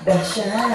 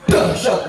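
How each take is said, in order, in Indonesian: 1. Kata itu diucapkan dengan lembut dan lemah. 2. Kata itu diucapkan dengan tegas dan kuat. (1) "Banci gitu" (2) "intonasi ceramah yang mahal ya kayak gini"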